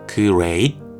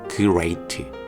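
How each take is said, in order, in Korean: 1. 발음이 뻣뻣해서, 글자를 읽는 초보자 같습니다. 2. 발음이 뻣뻣해서, 글자를 읽는 초보자 같습니다.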